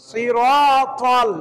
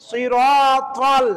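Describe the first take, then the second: No difference in how they are said.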